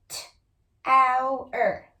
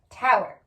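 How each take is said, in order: First: T-ow-er split into its sounds, t then ow then er; segmented by sound. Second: Said in the usual way. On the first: Shown as a demonstration. Teacher sounding out a spelling word for kids, split into sounds. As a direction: stretch T-ow-er into separate sounds. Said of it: "tower with some regular blocks".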